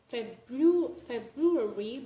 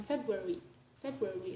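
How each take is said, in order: First: "February" with the R after B fully sounded; "February" said carefully, every R kept; full R pronunciation. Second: "February" with the first R left out; "February" lower, its R after B dropped; deleted R. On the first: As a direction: spell out "February" as Feb-RU-ary. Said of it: "we don't pronounce it as". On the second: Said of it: "delay the R sound". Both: Shown as a demonstration.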